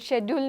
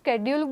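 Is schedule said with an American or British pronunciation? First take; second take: British; American. First: It starts with a sh sound, British style. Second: It starts with a sk sound, American style.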